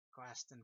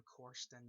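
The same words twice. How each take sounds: First: Questen in a Boston accent, the r dropped; a light Boston Questen. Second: Said in the usual way. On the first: Shown as a demonstration. Contrasting the Boston name with the real one for viewers. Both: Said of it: "it's fun to say in that way".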